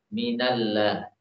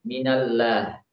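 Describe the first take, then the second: First: The L is pronounced light and thin. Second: The L is pronounced light and thin.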